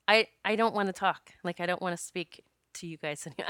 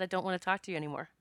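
First: Said in the usual way. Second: Softer, quick, polite refusal; a mild, nice-as-I-can brush-off; as nicely as possible. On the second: Retold or imitated. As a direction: let them down gently but firmly. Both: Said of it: "I said it as nicely as I could".

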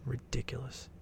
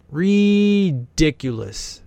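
First: "Ridiculous" dropped to a near whisper; muttered ridiculous. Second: "Ridiculous" stretched very slowly, voice lifting; drawn-out ridiculous. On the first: Commenter repeating to himself about the house, very soft "Ridiculous". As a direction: breathe "Ridiculous" almost silently. Repeats word under breath. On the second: Commenter gawking at the mansion, drawn-out "Ridiculous". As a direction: draw out every syllable of "Ridiculous". Marveling at rich house. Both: Real, not acted.

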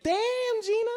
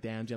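First: Playful "Damn, Gina" with a long first word; joking catchphrase. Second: Said in the usual way. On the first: Shown as a demonstration. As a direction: stretch "Damn" into a comic high cry, then drop "Gina". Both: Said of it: "be funny like".

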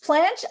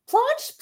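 First: Planche with a short "a", as in "ranch", questioning; unaccented surname. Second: Planche with a broad "ah", like "plonsh", questioning; accented surname. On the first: Host checking her friend's last name, plain-vowel pronunciation. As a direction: try Planche as "planch", raised pitch. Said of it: "How do you say your last name". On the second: Host unsure of her friend's last name, accented pronunciation. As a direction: try Planche the fancy way, "plahnch", high-pitched. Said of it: "an accent when I say your last name". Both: Shown as a demonstration.

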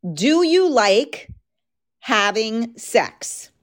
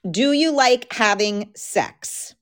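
First: Slow and teasing, stretched out; slow, drawn-out question. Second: Said in the usual way. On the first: Shown as a demonstration. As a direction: drag the question out slowly. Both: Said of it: "That's my question".

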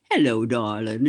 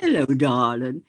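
First: Lightly voiced older politician, lower, greeting fondly; a hint of a gruff Boston old-timer saying hello; low affectionate greeting in imitation; Tip O'Neill voice. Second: A hint of a gruff Boston old-timer greeting a friend; Tip O'Neill voice. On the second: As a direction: repeat the imitation, a touch warmer. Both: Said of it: "in that wonderful voice of his".

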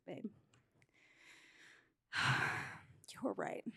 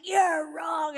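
First: Sighing, hushed, low concession; sigh, then murmur it as a reluctant apology; sheepish admission. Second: Loud, higher mock yell at a husband; retold yell. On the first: Retold or imitated. Wife coming back to admit her husband was right, sheepish and hushed. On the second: Wife insisting to her husband that he's wrong, retold yell. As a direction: yell it, imitating your own stubborn outburst. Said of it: "I literally yelled at him".

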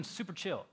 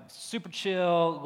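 First: Said in the usual way. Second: Super chill stretched slowly, louder; drawn out. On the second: Shown as a demonstration. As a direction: lean into "chill" slowly and loosely. Repeats phrase, drawn out.

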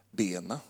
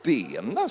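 First: Soft, low one-word answer; understated retold answer. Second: Incredulous echo with a swooping rise; mock disbelief. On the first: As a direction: give her reply quietly and low. Retells wife's short answer. (lågmält återgivet svar) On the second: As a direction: repeat it, amused and astonished. Repeats her answer in disbelief. (spelat häpen upprepning)

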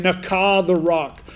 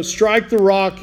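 First: "Nakah" drawn out slowly and leaned on hard, stressed nah-KAH with a falling tune, then "the rock" follows; slow, weighty Nakah. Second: Said in the usual way. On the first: Shown as a demonstration. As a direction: give "Nakah" a deliberate, heavy slow weight to show it means to strike to kill. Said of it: "Strike with the intent to kill". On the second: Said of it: "He's telling him".

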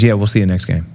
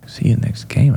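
First: Said in the usual way. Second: Breathy disbelieving question rising on game; incredulous echo. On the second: Retold or imitated. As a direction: echo it in shock, rising at the end. Speaker repeats in disbelief.

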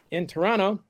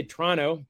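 First: Said in the usual way. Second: Toronto said as "Tronno", middle t dropped; Canadian pronunciation. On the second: Shown as a demonstration. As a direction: squeeze Toronto into two syllables, Tronno. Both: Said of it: "T R O N N O is how the Canadians pronounce it".

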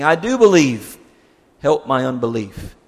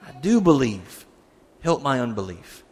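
First: Loud, desperate cry of faith; the father crying out to Jesus, loud and desperate. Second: Said in the usual way. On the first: Retold or imitated. Father cries out to Jesus for his son, loud and desperate. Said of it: "the boy's father cried out". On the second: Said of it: "that's an interesting phrase".

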